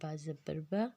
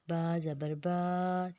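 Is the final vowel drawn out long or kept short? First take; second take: short; long. First: The final vowel is stretched only slightly. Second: The final vowel is drawn out long. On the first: The speaker calls it right. "बड़ी ज़बर का बिल्कुल थोड़ा खींचना है" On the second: The speaker calls it wrong. "अगर हम इसको खड़ी ज़बर के करेंगे ... जो कि गलत है"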